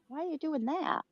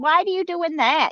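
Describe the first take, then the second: First: The question sounds plain and straightforward. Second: The question sounds passive-aggressive, with attitude. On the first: The asker simply wants to know the reason. The speaker calls it right. "but today I'm more like" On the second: The asker is annoyed and indirectly critical. The speaker calls it wrong. "I would t- put my passive aggressive on there and I'd get some attitude"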